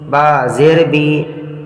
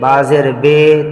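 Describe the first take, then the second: First: The final vowel is an 'ee' sound. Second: The final vowel is an 'ay' sound. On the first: The speaker calls it right. "हमें कुरान को मारूफ पढ़ना है।" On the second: The speaker calls it wrong. "इस तरह से नहीं पढ़ना है। ... इसी को कहते हैं मजहूल।"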